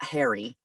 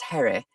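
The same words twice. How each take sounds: First: The name has an ordinary American pronunciation. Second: The name has an old transatlantic pronunciation. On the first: The speaker calls it wrong. "it's not Harry" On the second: The speaker calls it right. "it's Harry"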